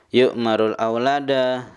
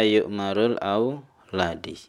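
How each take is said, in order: First: The last word ends with an 'a' vowel. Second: The last word ends with an 'i' vowel. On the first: The speaker calls it right. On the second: The speaker calls it wrong.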